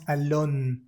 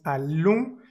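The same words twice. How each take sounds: First: Allons with the n sounded; wrong pronunciation. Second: Allons with nasal final, no n; correct nasal. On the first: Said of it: "no decimos allons". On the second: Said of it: "decimos allons y no decimos allons". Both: Shown as a demonstration.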